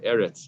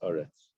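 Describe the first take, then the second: First: The first vowel is an E sound. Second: The first vowel is an A sound. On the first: The word is not at a pause in the verse. "the segel, the S sound" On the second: The word comes at a pause in the verse. "to an A sound"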